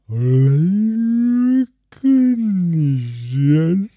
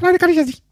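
First: It is said slowly in a normal voice. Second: It is said fast in a squeaky voice.

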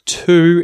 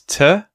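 First: The vowel is a full oo sound. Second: The vowel is reduced to a schwa. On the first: "instead of to" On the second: "the word to gets reduced and we use the schwa vowel sound"

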